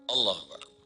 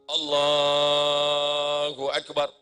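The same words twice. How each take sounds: First: The phrase is said quickly and short. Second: The phrase is drawn out long.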